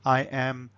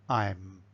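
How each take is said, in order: First: Two separate full words are said. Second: The words are joined into one contracted syllable. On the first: The speaker calls it wrong. "you don't want them to say I am" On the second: The speaker calls it right. "you want the, them to say I'm"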